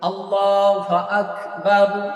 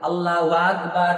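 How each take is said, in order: First: The phrase is pronounced precisely and clearly. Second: The phrase is pronounced in a distorted way. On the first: The speaker calls it right. "এটা হচ্ছে সহি উচ্চারণ" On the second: The speaker calls it wrong. "এইটা বাদে"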